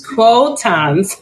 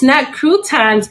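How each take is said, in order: First: "crotons" with a long O, drawn out slowly; corrected crotons. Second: "croutons" with an oo in the first syllable; mispronounced croutons. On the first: Subscriber nicely correcting the plant name, corrected "crotons". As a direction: stretch "crotons" slowly, first syllable like "crow". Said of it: "it's crotons". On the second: Subscriber correcting the seller's plant name, mispronounced "croutons". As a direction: say "croutons" like the salad bread cubes. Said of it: "It's not croutons". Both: Retold or imitated.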